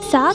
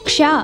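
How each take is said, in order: First: It begins with a plain 's' sound. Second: It begins with a 'ksh' cluster. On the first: The speaker calls it wrong. "సా కాదు" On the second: The speaker calls it right.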